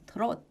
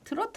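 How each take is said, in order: First: The word ends on a consonant, no vowel. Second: The word ends with an added final vowel. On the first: It is closer to the English pronunciation. The speaker calls it right. "트롯 이래야 된대요" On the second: It follows a Japanese-style pronunciation. The speaker calls it wrong. "트로트 하면 안 된대요"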